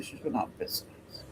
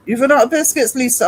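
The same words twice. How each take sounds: First: Whispered, mock grave; hushed aside. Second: High, loud, hammed-up dismay; mock alarm. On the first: Telling the chat about Lisa's biscuits, a mock-grave whisper. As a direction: breathe it like sharing bad news. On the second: To Lisa in chat about the biscuits, hammed-up alarmed cry. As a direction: cry it out like a tiny disaster.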